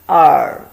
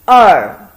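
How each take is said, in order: First: The pitch dips then rises. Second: The pitch falls sharply. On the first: It means ear. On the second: It means two. "fourth tone"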